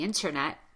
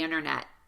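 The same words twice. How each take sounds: First: The T after the N is fully pronounced. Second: The T after the N is dropped. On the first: "instead of the internet" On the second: "I hear lots of Americans talk about the internet"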